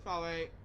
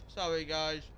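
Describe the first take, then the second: First: Soft, through a mouthful; mouth full of hot food. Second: Muffled by a hot bite; mouth full of hot food. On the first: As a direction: mumble an apology while chewing. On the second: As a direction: apologise while still chewing. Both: Real, not acted. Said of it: "I'm still eating".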